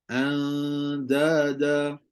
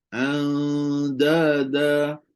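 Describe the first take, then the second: No difference in how they are said.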